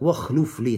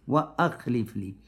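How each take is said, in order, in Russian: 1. Глагол сливается с 'wa' без гортанной смычки. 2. Гортанная смычка отделяет 'wa' от глагола. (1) "Многие говорят так, нельзя говорить «вахлюф»" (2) "Нужно говорить «хамза туркаты»"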